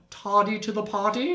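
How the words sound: It is said in a put-on British accent.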